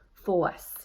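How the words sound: The R sound after the vowel is dropped. "A newsie might say force"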